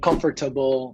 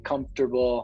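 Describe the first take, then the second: First: Every syllable is sounded as it is spelled. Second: A syllable is dropped, as in casual speech. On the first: The speaker calls it wrong. "they're not saying comfortable" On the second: The speaker calls it right. "they're saying comfortable"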